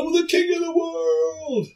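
It is said as an impersonation of the film character.

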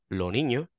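The s is dropped entirely.

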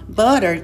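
The word is said in an American accent. "a gente fala assim no American English"

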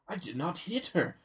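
It is said in an odd, overdramatic way. The original actor is saying the line. The speaker calls it right. "but with him, it's"

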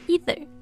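It is said with an American pronunciation. "美式呢发either"

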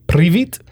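The greeting is pronounced the Ukrainian way. "It's Ukrainian"

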